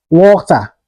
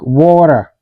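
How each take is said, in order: First: WATER with a clear hard T; T fully pronounced. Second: WATER with a quick D-like tap and R ending; flapped T. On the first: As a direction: say "water" with a crisp T, no flap. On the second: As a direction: say "water" American style, like "wader". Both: Shown as a demonstration. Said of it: "is pronounced like".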